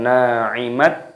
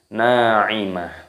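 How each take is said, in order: First: The word ends with a t sound. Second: The word ends with an h sound. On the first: The speaker calls it wrong. "Jadi bukan na'imat" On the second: The speaker calls it right. "tapi na'imah"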